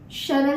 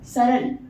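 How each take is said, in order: First: The word begins with an 'sh' sound. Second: The word begins with a plain 's' sound. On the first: The speaker calls it wrong. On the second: The speaker calls it right.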